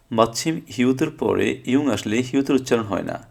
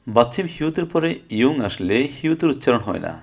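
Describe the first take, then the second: No difference in how they are said.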